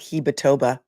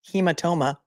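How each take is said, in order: First: It is said with a b sound near the end. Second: It is said with an m sound near the end. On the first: The speaker calls it wrong. "not hematoba" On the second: The speaker calls it right. "Hematoba is actually hematoma"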